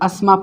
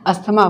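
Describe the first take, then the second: First: The th sound in the middle is silent. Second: The th sound in the middle is pronounced. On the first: The speaker calls it right. "ये हमारा टी एच cut जाता है" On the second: The speaker calls it wrong. "पर गलत है"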